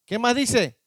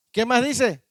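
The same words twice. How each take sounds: The two takes are said the same way.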